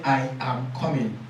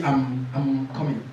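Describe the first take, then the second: First: I and am said as two clear words; I am coming with both words distinct; full I am. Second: I'm run together as one syllable; contracted I'm. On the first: Teacher showing the correct full form, I am. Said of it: "So you are trying to say". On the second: Teacher showing the common mistake, contracting I'm. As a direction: say I'm coming with the pronoun swallowed. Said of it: "A lot of us say". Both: Shown as a demonstration.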